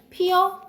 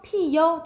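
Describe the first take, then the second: First: The final vowel is a plain eo sound. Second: The final vowel has a y glide, yeo. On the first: "어로 발음하는 것이 원칙" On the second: "여로 발음하는 것을 허용"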